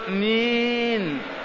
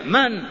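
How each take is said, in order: First: The word is drawn out in a soft, gentle tone. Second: The word is short, firm and curt. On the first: The reply sounds inviting to a stranger. The speaker calls it wrong. "مين حرام هذا؟" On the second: The reply gives a stranger no encouragement. The speaker calls it right. "ما تطمعه بكلمة لينة،"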